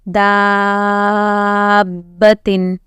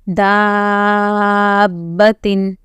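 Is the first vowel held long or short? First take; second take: long; long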